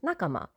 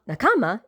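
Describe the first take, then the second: First: The stress is not on the second syllable. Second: The stress is on the second syllable. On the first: The speaker calls it right. "it's nakama" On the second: The speaker calls it wrong. "you almost never stress the second syllable. It's not nakama"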